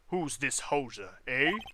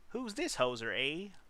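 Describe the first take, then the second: First: It is read in his plain accent. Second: It is said in a put-on Canadian accent.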